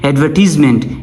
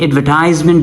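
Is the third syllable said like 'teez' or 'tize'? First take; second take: teez; tize. First: The third syllable sounds like 'teez'. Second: The third syllable sounds like 'tize'.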